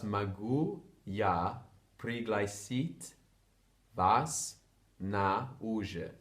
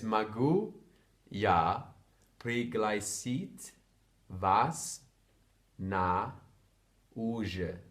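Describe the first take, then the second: First: Slow, joined-up, unhurried; whole phrase slowly. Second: Slow and louder, each word split by pauses. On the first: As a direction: say the full phrase slowly as a single line. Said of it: "So that's". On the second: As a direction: spell it out one word at a time for a learner. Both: Shown as a demonstration.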